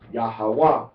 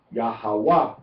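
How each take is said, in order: First: The stress is on the third syllable. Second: The same.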